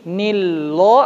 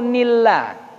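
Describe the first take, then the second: First: The L is heavy, with a dark o-like vowel. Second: The L is light, with a clear a vowel. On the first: The speaker calls it wrong. "Jadi jangan dibaca nilloh" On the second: The speaker calls it right. "Kenapa nilla? Karena harokat sebelumnya kasroh"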